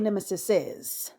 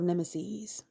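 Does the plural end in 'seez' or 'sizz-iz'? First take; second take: sizz-iz; seez. First: The word ends in an added 'sizz-iz' syllable. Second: The word ends in a long 'seez' sound. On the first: The speaker calls it wrong. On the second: The speaker calls it right.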